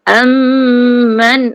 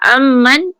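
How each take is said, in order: First: The nasal m is held for a moment. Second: The nasal m is cut short. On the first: The speaker calls it right. "bagi tempoh, bagi singgah kejap" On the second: The speaker calls it wrong. "tak singgah"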